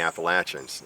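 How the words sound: It uses the southern regional pronunciation. "if you're from the southern part of the country"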